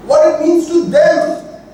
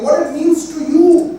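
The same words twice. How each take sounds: First: "What" pitched high and leaned on, slow; stress on what. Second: "you" pitched high and stretched at the end, slow; stress on you. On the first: Teacher to students, stressing "What" in what it means to them. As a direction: hit "What" hard, then let "to them" fall. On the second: Teacher to students, pointing the meaning at "you". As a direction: land the weight on "you" to turn it to the listener. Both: Shown as a demonstration. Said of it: "We are telling something".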